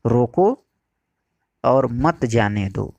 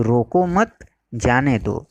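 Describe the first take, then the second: First: रोको set apart, long pause, then मत जाने दो; pause after रोको. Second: रोको मत as one phrase, pause, then जाने दो; pause after मत. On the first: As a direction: break right after रोको, keeping मत with जाने दो. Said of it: "जिससे उसके दो अर्थ प्रकट होते हैं, पहला". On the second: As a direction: break after मत before जाने दो. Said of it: "ये दोनों अर्थ एक दूसरे के विरुद्ध हैं". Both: Shown as a demonstration.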